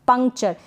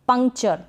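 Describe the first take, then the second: The two takes are said the same way.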